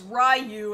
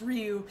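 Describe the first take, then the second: First: The name is said with an American pronunciation. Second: The name is said with a Japanese pronunciation. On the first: The speaker calls it wrong. "tons of people in America think that Ryu from Street Fighter's name is Ryu" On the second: The speaker calls it right. "and it's not, it's Ryu"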